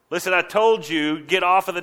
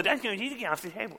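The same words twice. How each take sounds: First: Louder, slightly raised-pitch telling-off; stern scolding. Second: High, soft, rushed childish mimicry; mocking echo. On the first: Acted. Adult ordering a child off the table, scolding. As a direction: lay down the rule firmly. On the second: Kid parroting a parent's order back, mocking. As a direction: garble it back in a squeaky jeer. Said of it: "what you said in a mocking tone".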